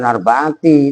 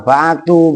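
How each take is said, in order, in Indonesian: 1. Kata ini diakhiri dengan vokal 'i'. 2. Kata ini diakhiri dengan vokal 'u'. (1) "bukan arba'ati" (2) "arba'atu bukan arba'ati"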